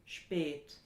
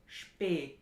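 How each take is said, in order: Both takes have the same delivery.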